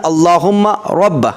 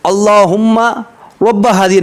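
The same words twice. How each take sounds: First: अल्लाहुम्मा रब्ब with a slightly heavier voice, no echo; slightly thicker voice. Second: Echoing अल्लाहुम्मा रब्ब हाज़िहि with a drawn reverb; wrong way. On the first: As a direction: thicken the voice a little on अल्लाहुम्मा रब्ब, clean and clear. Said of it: "हल्का सा आवाज़ को मोटी करना है, इको नहीं लगाना है". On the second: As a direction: echo effect on अल्लाहुम्मा, the way not to recite. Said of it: "नहीं पढ़ना है". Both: Shown as a demonstration.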